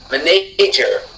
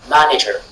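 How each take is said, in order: First: The stress is on the second syllable. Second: The stress is on the first syllable. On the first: "si la syllabe N, na était accentuée" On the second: "la syllabe ma du départ soit accentuée"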